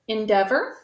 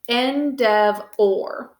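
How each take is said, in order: First: The first vowel is muffled and reduced. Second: The first vowel is said clearly as eh. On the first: This is the normal spoken pronunciation. "We pronounce this word endeavor" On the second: It is said this way to help spelling. "let's sound it out with our think to spell endeavor"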